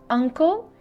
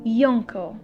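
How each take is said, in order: First: It begins with a plain vowel sound. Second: It begins with a y sound. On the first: The speaker calls it right. "we pronounce the letter U as a sound, not as y sound" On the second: The speaker calls it wrong. "and not yuncle"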